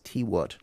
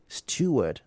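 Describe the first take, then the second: First: The first syllable sounds like 'tee'. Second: The first syllable sounds like 'stew'. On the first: The speaker calls it wrong. "not T word" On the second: The speaker calls it right. "stew, like you say stew, not tea"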